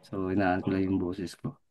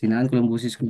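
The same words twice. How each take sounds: First: Mas mahinang boses, totoong hininaan; lowered voice. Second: Said in the usual way. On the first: Real, not acted. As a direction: hinaan ang boses dahil may natutulog. (mahinang pagsasalita para hindi magising ang kapitbahay)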